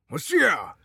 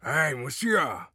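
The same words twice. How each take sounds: First: موسیا yelled high and loud; loud shout. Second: Slow drawn-out call of موسیا. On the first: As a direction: bellow موسیا at full force. (فریاد بلند و زیر «موسیا») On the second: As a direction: call him slowly, stretching موسیا. (صدا زدن کشیده و آرام «موسیا») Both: A narrator's reading. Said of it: "دوباره داد زد".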